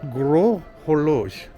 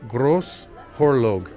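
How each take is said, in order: First: It follows a local French pronunciation. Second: It is read out in an anglicized way. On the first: The speaker calls it right. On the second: The speaker calls it wrong.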